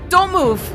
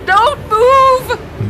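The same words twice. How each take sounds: First: It is said hesitantly, without force. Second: It is said boldly, with force.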